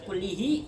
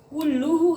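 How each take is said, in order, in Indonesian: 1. Vokal setelah l ganda adalah i. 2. Vokal setelah l ganda adalah u. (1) "Nggak boleh dibaca kullihi" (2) "Harus dibaca ro, rafa"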